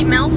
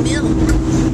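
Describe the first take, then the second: First: "milk" with a short E vowel; milk said as melk. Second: Said in the usual way. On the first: Shown as a demonstration. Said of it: "Sometimes I say milk when I mean milk". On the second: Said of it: "when I mean milk".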